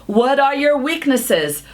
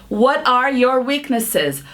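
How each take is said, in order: No difference in how they are said.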